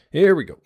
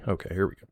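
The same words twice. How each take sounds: First: Higher, louder hype; excited. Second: Said in the usual way. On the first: Real, not acted. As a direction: pump up the start, loud and high.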